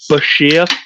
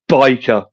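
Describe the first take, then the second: First: The middle consonant is a sh sound. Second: The middle consonant is a hard k sound. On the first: "as he put in his book, it's uh, it's pronounced Bashir" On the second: "The absolute correct way, of course, is biker"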